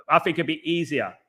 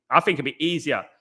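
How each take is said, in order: Both takes have the same delivery.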